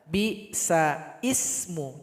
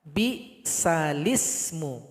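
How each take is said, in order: First: A glottal stop comes before ismu, no l link. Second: The l runs straight into ismu, no glottal stop. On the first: The speaker calls it wrong. "Salah kalau dibaca bi sa ismu" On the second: The speaker calls it right. "mesti dibaca bi salismu"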